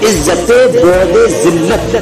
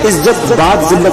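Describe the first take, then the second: First: The middle word ends with an added linking vowel. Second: The middle word ends plainly, without a linking vowel. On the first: The speaker calls it right. "ये" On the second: The speaker calls it wrong. "नहीं है"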